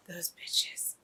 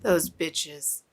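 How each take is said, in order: First: Unvoiced, low whispered "bitches"; real bitter whisper; whispered curse. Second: Said in the usual way. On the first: Real, not acted. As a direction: spit it out under your breath. Cursing the villains.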